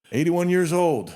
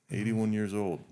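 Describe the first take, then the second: First: Emphatic amazement. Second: Said in the usual way. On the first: Real, not acted. Marvelling at guest's age.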